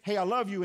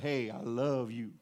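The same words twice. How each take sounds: First: It is said lightly and casually. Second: It is said with deep, committed feeling.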